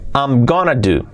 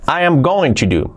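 First: The phrase is contracted and reduced to gonna. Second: The phrase is said in full, uncontracted.

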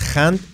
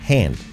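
First: The h at the start is harsh and throaty. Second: The h at the start is soft and breathy. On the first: The speaker calls it wrong. "cuidado con la H, que no es hand" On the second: The speaker calls it right. "Así, con la H suave"

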